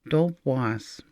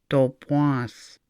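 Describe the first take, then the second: No difference in how they are said.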